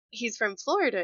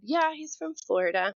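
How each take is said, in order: First: Puzzled check on "Florida", at usual pitch; puzzled mother. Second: Higher, lightly voiced child confirming "Florida"; little daughter. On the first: Retold or imitated. Mother querying her daughter's claim about Florida, puzzled. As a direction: question "Florida" in the adult's own register. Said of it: "And I was like". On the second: Small daughter confirming to her mother, matter-of-fact. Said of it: "And she said".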